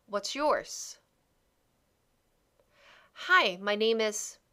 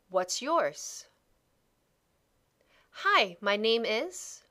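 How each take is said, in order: Both takes have the same delivery.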